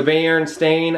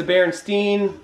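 First: Berenstain with the ending said as "-stain"; Berenstain pronunciation. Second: Berenstein with the ending said as "-stine"; Berenstein pronunciation. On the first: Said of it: "or the Berenstain". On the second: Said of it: "Some people remember them as". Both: Shown as a demonstration.

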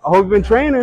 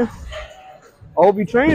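First: Said in the usual way. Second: Slow, drawn-out taunt; slow teasing drawl. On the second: Real, not acted. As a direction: stretch it out slowly, teasing.

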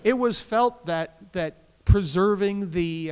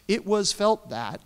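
First: Sweetly passive aggressive, higher and louder, slow with a laugh. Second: Slow, deliberately formal phrasing; passive voice. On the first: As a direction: lay on the sugary passive aggression. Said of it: "Is that the passive aggressive voice?". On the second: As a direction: say it as a stiff bureaucratic passive. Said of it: "I'm going to use the passive voice here". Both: Shown as a demonstration.

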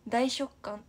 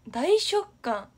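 First: Said in the usual way. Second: 大食感 stretched slow, higher and louder; slow emphatic 大食感; drawn out. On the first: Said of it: "repeating a word". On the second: Shown as a demonstration. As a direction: drag out 大食感 with a lift. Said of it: "repeats drawn out high".

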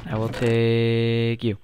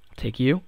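First: Slow, drawn-out, solemn; slow deliberate. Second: Said in the usual way. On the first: Acted. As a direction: say it slowly, like a vow. Slow drawn second take.

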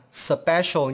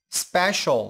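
First: "special" with an extra vowel between s and p; wrong split cluster. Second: "special" with s and p run straight together; correct SP cluster. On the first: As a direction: break "special" open as suh-pe-shol. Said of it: "Chúng ta không đọc là special". ("special" chèn âm ơ giữa s và p) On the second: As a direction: join the s and p of "special", no vowel between. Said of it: "có hai phụ âm liên tiếp". ("special" đọc liền hai phụ âm s và p) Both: Shown as a demonstration.

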